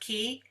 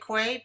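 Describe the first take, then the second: First: The word sounds like 'key'. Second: The word does not sound like 'key'. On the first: This is another accepted way to say it. "it can be pronounced key" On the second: This is how the speaker normally says it. "I say quay"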